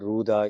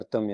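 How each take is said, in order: First: The first syllable is said as ru. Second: The first syllable is a vocalic r. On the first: This is the common way it is said in the south. The speaker calls it wrong. "தென்னிந்தியாவில்" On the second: This is how the word is really pronounced. The speaker calls it right. "ஆனால் உண்மையில் அர்த்தம் என்று உச்சரிக்கப்படுகிறது"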